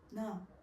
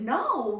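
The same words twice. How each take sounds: First: The word is said flatly, with no reaction. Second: The word is said with a lively, defensive reaction. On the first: The denial seemed odd and unconvincing. "And he said it like that" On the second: An innocent person is reacting to an accusation. "you kind of show some um reaction"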